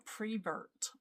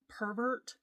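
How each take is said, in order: First: The word begins with the sound 'pre'. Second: The word begins with the sound 'per'. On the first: "she would say, you know, you're a prevert" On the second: "instead of saying pervert"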